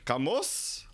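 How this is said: The name is said with a Filipino accent.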